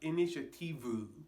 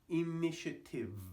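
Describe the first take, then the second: First: The word ends with an extra vowel after V. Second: The word ends cleanly on the V sound. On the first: The speaker calls it wrong. "It's not initiative. There's no U, no vowel on the end here" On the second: The speaker calls it right. "Just cut it off at the end there"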